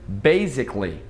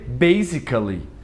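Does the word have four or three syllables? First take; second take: three; four. First: The A is silent, giving three syllables. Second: The A is pronounced, giving four syllables. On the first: The speaker calls it right. "esse A não é pronunciado, fica basically" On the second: The speaker calls it wrong. "muita gente lê basically"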